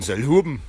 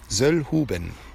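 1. Er wird mundartlich ausgesprochen. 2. Er wird standarddeutsch ausgesprochen.

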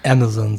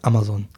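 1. Mit einem steifen, übertriebenen amerikanischen Akzent gesprochen. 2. Kurz gesagt, halb zwischen Deutsch und Englisch. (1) "gestelzt, möchte gern amerikanisch" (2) "Ich habe meistens so ein Mittelding. Ich sage mal so ganz kurz"

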